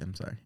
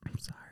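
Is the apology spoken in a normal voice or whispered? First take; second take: normal; whispered. First: It is spoken in a normal voice. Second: It is spoken in a whisper. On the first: "You weren't sincere" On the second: "you whisper it all fucking creepy"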